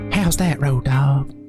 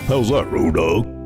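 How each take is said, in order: First: It is said in an ordinary, lighter voice. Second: It is said in a deeper, bassier voice.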